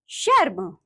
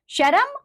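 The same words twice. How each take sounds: First: Said in the usual way. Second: "शर्म" high and rising, "sha-ram"; wrong pronunciation. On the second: Shown as a demonstration. Teacher showing pupils the r error, "शर्म" mispronounced as "sharam". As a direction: add a vowel inside "शर्म", "sharam". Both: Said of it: "र संबंधी अशुद्धियां".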